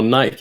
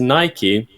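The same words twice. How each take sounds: First: Nike is said the British way. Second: Nike is said the American way.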